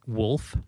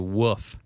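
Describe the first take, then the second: First: The word is said with an L sound. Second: The word is said without an L sound. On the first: The speaker calls it right. "instead of pla- saying saying wolf" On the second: The speaker calls it wrong. "people will say woof"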